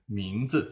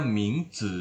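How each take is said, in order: First: "mingzi" with zi short, light and unstressed; "mingzi" with a neutral-tone zi, the correct model. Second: "mingzi" with a dipping third tone on zi, as a wrong example. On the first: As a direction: say "mingzi" with a weak toneless zi after a stressed ming. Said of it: "Kita bacanya ringan saja". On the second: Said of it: "jangan dibaca mingzi ya, menjadi nada ketiga". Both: Shown as a demonstration.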